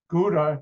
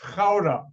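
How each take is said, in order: First: The name is said with an American pronunciation. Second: The name is said with a Dutch pronunciation. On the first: The speaker calls it wrong. "Americans pronounce it Gouda" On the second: The speaker calls it right. "it's really pronounced Gouda"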